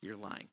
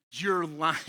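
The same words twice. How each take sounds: First: Softer, lower you're lying, said almost to himself; quiet. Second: Loud accusation of lying, like a TV detective; accusing. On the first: Correcting his own delivery of you're lying, quiet and low. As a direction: drop it down, soft and low. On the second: Caller confronted over a made-up story, loud accusation. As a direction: snap it at the caller like a TV cop. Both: Shown as a demonstration.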